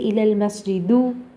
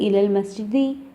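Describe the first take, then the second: First: The last word ends in a 'u' vowel. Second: The last word ends in an 'i' vowel. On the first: The speaker calls it wrong. "You don't say" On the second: The speaker calls it right. "you say"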